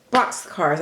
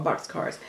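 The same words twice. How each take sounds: First: Said in the usual way. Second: Box cards whispered, unvoiced and much softer; unsure whisper. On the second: Shown as a demonstration. To viewers, unsure of the craft name, whispering. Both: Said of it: "I think this is what you call them".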